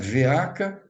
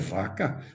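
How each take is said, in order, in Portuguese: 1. A palavra começa com o nome da letra 'vê'. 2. A palavra começa com uma sílaba simples 'vah'. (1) "Não é veaca" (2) "é vaca"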